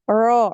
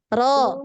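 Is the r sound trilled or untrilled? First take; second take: untrilled; trilled. First: The r is very thick and untrilled. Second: The r is made forward with a single trill. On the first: The speaker calls it wrong. "terlalu uh, tebal gitu ya dan tidak ada takrir" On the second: The speaker calls it right.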